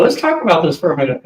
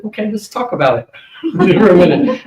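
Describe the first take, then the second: First: Said in the usual way. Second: Higher, louder, laughing as he backs away; a startled laugh, pitched up, pulling back; nervous laughing balk. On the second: Retold or imitated. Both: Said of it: "I backed up a little".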